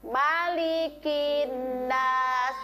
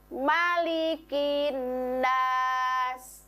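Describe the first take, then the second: The two takes are said the same way.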